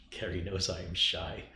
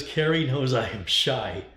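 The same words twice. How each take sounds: First: Said in the usual way. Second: Drawn-out mock reading of Brian's message; reading Brian's comment. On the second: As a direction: announce the chat line deliberately, word by word. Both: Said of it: "Brian says".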